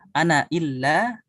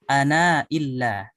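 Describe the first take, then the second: First: The final vowel of ana is short. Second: The final vowel of ana is lengthened. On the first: "yang pertama dengan hadzaf seperti hafs" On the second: "bisa dibaca dengan dipanjangkan"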